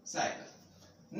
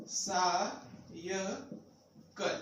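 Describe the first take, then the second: First: साइकिल said as one word, slow and soft after the syllables; whole word, slow. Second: साइकिल broken up as सा, य, कल with pauses between; split into syllables. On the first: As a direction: blend the syllables back into साइकिल, slowly. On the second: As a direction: sound out सा… य… कल one syllable at a time. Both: Shown as a demonstration.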